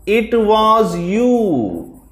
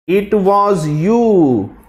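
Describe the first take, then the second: First: Slow and high, stress on "was"; drawn-out "It was you" with "was" pushed up; emphatic stress. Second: Slow and high, stress on "you"; accusing "It was you", "you" pressed; emphatic stress. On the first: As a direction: lean hard on "was" in "It was you", slowly. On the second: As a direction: land the weight on "you" in "It was you", slowly. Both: Shown as a demonstration. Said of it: "he wants to emphasize with the intensity".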